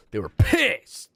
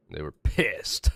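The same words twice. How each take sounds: First: Emphatic and louder. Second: Laughing through it. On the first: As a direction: say it again with more punch. Repeats it louder. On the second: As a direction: say it while laughing. First take, quieter. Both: Real, not acted.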